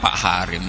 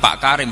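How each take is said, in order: First: The name starts with an h sound. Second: The name starts with a k sound. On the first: The speaker calls it wrong. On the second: The speaker calls it right.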